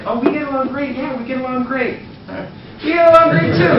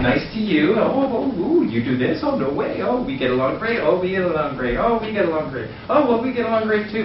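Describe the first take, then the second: First: Mocking agreement, much higher and louder at the end; teasing tension. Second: Eager to please, higher on each oh; kiss-ass gushing. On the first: Creating tension with the hottest girl, teasing mock agreement. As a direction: tease her with over-the-top agreement. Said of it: "Now there's tension". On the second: Retold or imitated. Fawning over the group, gushing agreement. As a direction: gush over everything like a suck-up. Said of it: "Now I'm a kiss ass".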